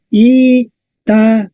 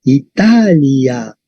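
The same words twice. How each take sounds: First: "Italia" slowly split into I, ta, li, a; syllable by syllable. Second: "Italia" very slow, stretched on TA; stress on TA. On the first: Teacher counting four syllables, "Italia" said piece by piece. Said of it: "Entonces tenemos I, ta, li, a". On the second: Teacher showing where the accent falls, TA stretched in "Italia". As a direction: join up "Italia" and lengthen the stressed TA. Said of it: "el acento está en A". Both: Shown as a demonstration.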